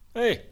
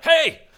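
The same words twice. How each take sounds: First: The greeting is calm and casual. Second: The greeting is shouted with alarm.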